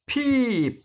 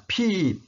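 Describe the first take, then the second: First: "Peep" with a long, stretched ee, pitched up and falling; long ee vowel. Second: "Peep" again with a drawn-out ee, falling at the end; teacher repeats "Peep" with a long ee; long ee vowel. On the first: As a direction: hold the ee in "Peep" a little longer. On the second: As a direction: model "Peep" with a stretched ee. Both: Shown as a demonstration. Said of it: "Kalau ada I dua agak panjang".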